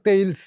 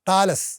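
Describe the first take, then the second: First: The name is said like 'Thay-ils'. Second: The name is said like 'Thah-las'.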